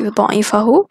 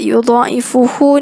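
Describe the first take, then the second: First: The vowel before the final syllable is 'a'. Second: The vowel before the final syllable is 'u'. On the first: The verb answers the question as its result. "dibaca dengan nasabkan fa'al yudha'ifahu" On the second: The verb starts a new independent sentence. "rafa' kerana listi'naf, mula ayat baru"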